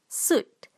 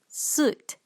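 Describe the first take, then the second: First: It is said with a Malaysian-style pronunciation. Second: The same.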